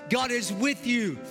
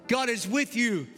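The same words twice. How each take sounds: The two takes are said the same way.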